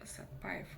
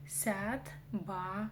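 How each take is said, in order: First: Said in the usual way. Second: «Сятбаев» по слогам, с мягким «ся» и «б»; медленно скажи «Сят-ба-ев»; казахское произношение. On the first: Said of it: "Но по-казахски". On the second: Shown as a demonstration. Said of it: "пишется как Сятбаев". («Сятбаев» раздельно, через «я»)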